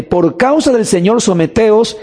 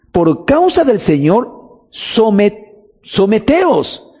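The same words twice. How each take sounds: First: Said in the usual way. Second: SOMETEOS drawn out slowly, word broken for emphasis; slow, deliberate weight on "someteos"; emphatic repetition. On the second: Shown as a demonstration. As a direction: stretch out "someteos" as a firm command. Repeats verse word by word for emphasis.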